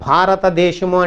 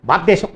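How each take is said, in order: First: Every syllable is clear and sharply articulated. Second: The word is slurred and hard to make out. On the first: It is fully correct and easy to follow. The speaker calls it right. "Correct అన్నాం, స్ఫుటత్వము స్పష్టత కూడా వచ్చింది" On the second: The listener cannot understand it. The speaker calls it wrong. "అర్థం కాదు"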